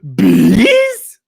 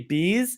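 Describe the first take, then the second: First: The word is said in an exaggerated cartoon voice. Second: The word is said in a plain, ordinary voice. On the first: The speaker calls it right. "Like a cartoon voice, really" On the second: The speaker calls it wrong. "You can't just say bees"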